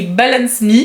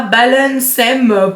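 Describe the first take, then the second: First: "Balance Me" as two separate English words; English reading. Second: "balancem" as one word ending in "-sem"; run-together misreading. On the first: Vlogger showing what is written, spelled-out "Balance Me". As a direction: say "Balance Me" slowly, ending on a clear "mee". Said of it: "C'est écrit Balance Me". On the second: Vlogger reading the website address, "balancem" fused into one word. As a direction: stretch "balancem" slowly, closing on the m. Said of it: "quand je lis le site internet, je vois". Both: Shown as a demonstration.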